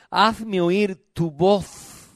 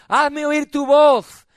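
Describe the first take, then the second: First: Solemn verse reading. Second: Higher, drawn-out preaching command; insistent demand. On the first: Real, not acted. Preacher reading verse fourteen to congregation, solemn verse reading. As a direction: draw out each word of the verse. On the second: Acted. God demanding to hear church's voice, insistent demand. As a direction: call it out, stretching the end. God's demand, after reading verse.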